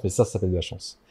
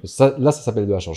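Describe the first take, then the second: First: "ça, ça s'appelle de la chance" repeated lower and softer, leaning on "ça"; a lower, softer, insistent echo of the first take; emphatic repeat. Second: Said in the usual way. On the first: Real, not acted. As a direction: drop low and quiet, press the repeated "ça". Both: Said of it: "Je crois pas trop à la chance".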